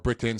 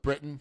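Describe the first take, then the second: First: The middle t is clearly pronounced. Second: The middle t is dropped or swallowed. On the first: The speaker calls it right. "or Britain" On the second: The speaker calls it wrong. "sorry, I'm from Utah"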